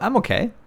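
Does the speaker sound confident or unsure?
confident. It is said in a fairly confident, positive tone. "Is like, oh, not too bad"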